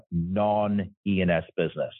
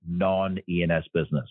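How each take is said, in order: First: Non-E and S business said slowly, each word leaned on; slow down and hit non-E and S business; stress on non-E and S. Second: Said in the usual way. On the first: Shown as a demonstration. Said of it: "I emphasize the word non-E and S business". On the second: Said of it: "I emphasize the word".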